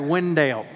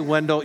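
First: The name is said in a Southern accent. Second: The name is said without a Southern accent. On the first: The speaker calls it right. "when you're in North Carolina and you're a Southerner by birth ... you say Wendell" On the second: The speaker calls it wrong. "you don't say Wendell"

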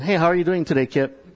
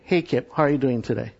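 First: It sounds hurried and offhand, in passing. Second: It sounds slow, attentive and genuinely caring.

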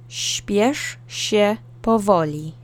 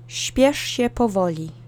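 First: The phrase is said slowly for practice. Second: The phrase is said at normal speed.

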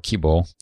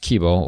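First: The final O is long. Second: The final O is short.

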